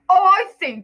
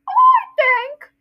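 First: A low voice imitating Vernon. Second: A high voice imitating Dudley.

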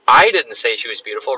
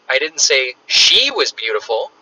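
First: The stress is on "I". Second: The stress is on "she".

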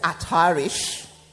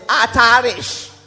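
First: It is said in a British accent. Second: It is said in an African accent.

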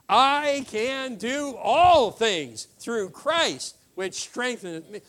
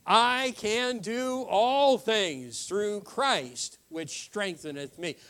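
First: It is said with high energy. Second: It is said with low energy.

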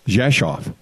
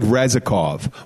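First: It begins with a J-like sound, Polish-style. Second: It begins with an R sound, spelling-style. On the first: This is how local people actually say it. The speaker calls it right. "it's in Polish, it's pronounced Rzeszów" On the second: This is how the spelling looks to an English reader. The speaker calls it wrong. "it looks like Rezikov"

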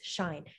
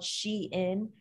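First: It is said as one syllable rhyming with fine. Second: It is said as two syllables, she-in. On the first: The speaker calls it wrong. "a lot of people pronounce it as Sheen or Shine" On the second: The speaker calls it right. "I'm pretty sure it is called Shein"

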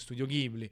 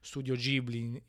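First: It is said in an Italianized way. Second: It is said the original, non-adapted way. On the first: The speaker calls it wrong. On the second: The speaker calls it right.

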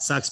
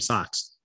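First: The word has a plain 'uh' vowel. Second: The word has a Boston 'ah' vowel. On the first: "sucks became" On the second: "I got my Boston accent"

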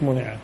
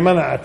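First: The word begins with a 'mu' sound. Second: The word begins with a 'ma' sound. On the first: The region is deprived of goods from outside. The speaker calls it wrong. "مش منعت" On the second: The region itself withholds its goods. The speaker calls it right. "هي منعت"

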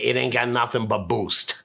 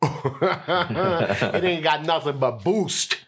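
First: The word boost gets only mild emphasis. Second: The word boost gets strong, heavy emphasis.

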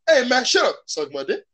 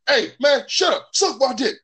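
First: It sounds like an inviting question. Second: It sounds like an angry insult.

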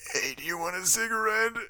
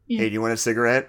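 First: It is said in an exaggerated put-on voice. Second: It is said in an ordinary everyday voice. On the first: The speaker calls it wrong. "it might also be kind of funny if you were just like" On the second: The speaker calls it right. "in a totally normal voice"

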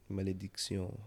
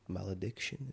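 First: The word is pronounced the French way. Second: The word is pronounced the English way.

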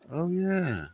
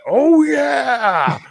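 First: It is said flatly with little energy. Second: It is screamed out loudly with energy.

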